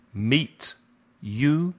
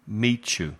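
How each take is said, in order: First: "Meet" and "you" said apart, with a rise on "you"; separate words. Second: "meet you" blended, the t sliding into the y; linked meet you. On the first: Teacher contrasting unlinked "Meet, you". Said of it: "al unir el meet y el you". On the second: Teacher demonstrating linked "meet you". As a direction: run "meet you" together smoothly. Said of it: "el sonido cambia". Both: Shown as a demonstration.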